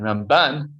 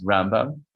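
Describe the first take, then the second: First: Ramban with the second syllable, ban, stressed; stress on last syllable. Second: Rambam with the first syllable, Ram, stressed. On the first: Teacher showing students how to tell the names apart, last-syllable stress on Ramban. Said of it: "which syllable you emphasize". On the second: Teacher showing students how to tell the names apart, first-syllable stress on Rambam. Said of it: "put the emphasis on the first syllable". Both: Shown as a demonstration.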